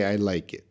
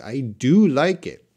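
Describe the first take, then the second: First: Said in the usual way. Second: "do" stressed strongly in "I do like it"; emphatic DO. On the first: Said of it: "for writing, you would just say". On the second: Shown as a demonstration. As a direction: punch the word "do" for emphasis. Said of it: "add do for emphasis".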